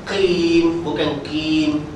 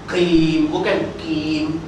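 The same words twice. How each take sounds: Both takes have the same delivery.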